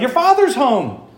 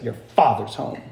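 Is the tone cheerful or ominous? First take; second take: cheerful; ominous. First: It is said in a glad, welcoming tone. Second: It is said in a stern, threatening tone. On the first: Good news that someone has arrived. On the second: Trouble is coming and there is no hiding. "other times she would say it like this"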